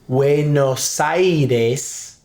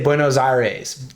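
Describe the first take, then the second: First: Aires sounds like ace, with no R. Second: Aires has a strong American R sound. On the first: The speaker calls it right. "But if you say" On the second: The speaker calls it wrong. "American English speaker, would probably say"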